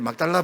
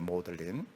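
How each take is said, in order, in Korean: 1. 이 이름은 세 음절로 발음합니다: 막-달-라. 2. 이 이름은 두 음절로 발음합니다: 모드-린. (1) "막달라라 부르면 안 됩니다" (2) "영어 발음은 모들린입니다"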